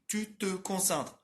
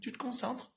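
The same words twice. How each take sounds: First: The phrase is said slowly with every syllable articulated. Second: The phrase is said fast with reduced syllables. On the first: The speaker calls it wrong. "ninguém fala assim" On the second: The speaker calls it right. "As pessoas vão falar assim"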